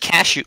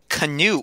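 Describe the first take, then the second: First: The name sounds like the word 'cashew'. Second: The name sounds like the word 'canoe'. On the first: The speaker calls it wrong. "like every esports announcer ever" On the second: The speaker calls it right. "Like the boat"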